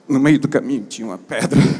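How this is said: It is read in a natural, everyday way.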